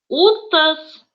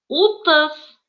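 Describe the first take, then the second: No difference in how they are said.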